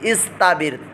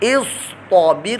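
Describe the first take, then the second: First: The t sound is light and thin. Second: The t sound is heavy and full-mouthed. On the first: The speaker calls it wrong. "पुर मोटा नहीं किया तो बारीक ता निकलेगी" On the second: The speaker calls it right. "तो पुर मोटा"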